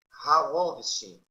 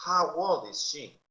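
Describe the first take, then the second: First: Put-on How old is she louder, How stressed; louder model. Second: Put-on slow How old is she with How stressed; slow model. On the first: Teacher to class, louder repeat. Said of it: "model louder". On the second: Teacher modelling for students, slow. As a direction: model it slowly for learners. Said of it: "model slow". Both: Shown as a demonstration.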